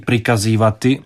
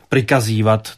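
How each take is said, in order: First: The verb ends with the full final syllable. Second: The verb ends cut short, without the final vowel. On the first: This is the standard form. "spisovně to mělo říct trošku jinak, mělo by tam zůstat to i" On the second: This is how people in Dalmatia say it. "lidé v Dalmácii polikají poslední slabiky sloves"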